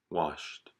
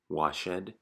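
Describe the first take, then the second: First: The ending blends in without an extra syllable. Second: The ending is a separate syllable, like ed. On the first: The speaker calls it right. "the correct pronunciation" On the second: The speaker calls it wrong. "to pronounce it as ed"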